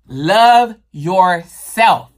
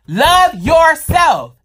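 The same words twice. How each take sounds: First: Love drawn out very slow and louder; slow emphatic plea. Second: Love yourself called out higher and louder, very slow; higher louder plea. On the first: To viewers dating closeted men, a slow emphatic plea. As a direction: plead Love yourself slowly, word by word. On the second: To viewers dating closeted men, a higher, louder repeated plea. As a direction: raise it up and press Love yourself. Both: Acted.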